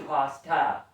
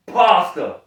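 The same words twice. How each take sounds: First: "pasta" said slowly as /pʰɑstæ/; other "pasta". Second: "Pasta" with a broad /pʰɑstə/; Southern "Pasta". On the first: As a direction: say "pasta" the standard way. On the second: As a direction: say "Pasta" the country way. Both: Shown as a demonstration. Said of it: "not pasta".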